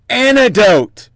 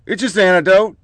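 First: "anecdote" drawn out slow and a bit higher, mocking; sarcastic anecdote. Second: Said in the usual way. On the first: Host mocking the media's excuse, drawn-out sneer. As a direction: stretch the word "anecdote" out with scorn.

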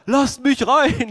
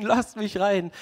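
First: Higher, louder, slow call at the door; calling to be let in. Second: Lasst mich rein said again with a laugh, back at normal volume; laughing repeat. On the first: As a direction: shout through the door to be let in. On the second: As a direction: echo the plea, laughing it off. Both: Retold or imitated. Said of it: "Petrus klopft weiter".

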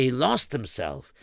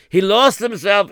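First: Said in the usual way. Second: Emphatic. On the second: A narrator's reading.

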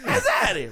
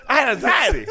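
First: High anxious squeal. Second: Said in the usual way. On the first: Real, not acted. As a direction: jump way up on Anxiety. High mocking repeat.

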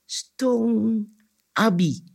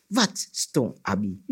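First: "Stong Abi" high, held and spaced out; insistent prompt. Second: "Wat stong Abi" lower and slow; puzzled question. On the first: Anansi prompts the cricket with "Stong Abi", high and insistent. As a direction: stretch "Stong", pause, then "Abi" still high. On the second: Baffled cricket asks "Wat stong Abi", low puzzled question. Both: A narrator's reading.

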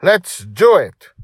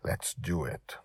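First: High, loud, drawn-out rallying cry; slow, stretched, thrilled shout; whoop. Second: Soft, hushed agreement; subdued, near-whispered resolve. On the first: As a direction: whoop it like a child off to battle. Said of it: "Dragon Little whooped". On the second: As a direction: say it quietly, as a secret pact. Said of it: "I whispered". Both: A narrator's reading.

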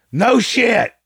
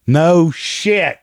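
First: Much higher, mocking squeak; squeaky sarcasm. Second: Sarcastic. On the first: Vlogger echoing his own jab, squeaky and mocking. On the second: Sarcastic reply to clip. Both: Real, not acted.

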